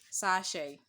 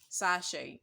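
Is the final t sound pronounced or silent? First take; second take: silent; silent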